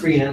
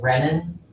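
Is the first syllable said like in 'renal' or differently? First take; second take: like renal; differently. First: The first syllable sounds like the start of 'renal'. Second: The first syllable differs from the start of 'renal'. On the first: The speaker calls it right. "should be pronounced renin, like I just said, because the root of it is rene, like renal" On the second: The speaker calls it wrong. "people will sometimes pronounce it renin"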